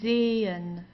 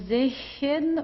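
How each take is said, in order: First: No consonant between the vowels; the e is long. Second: A breathy consonant is sounded between the two vowels. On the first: The speaker calls it right. "We don't pronounce the H at all. It just has the function to stretch the E" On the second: The speaker calls it wrong. "we don't say sechen"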